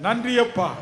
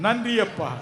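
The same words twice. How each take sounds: The two takes are said the same way.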